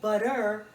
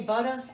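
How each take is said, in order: First: The final R is strongly pronounced. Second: The final R is soft or dropped. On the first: "I pronounce the R too much" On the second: "I say butter"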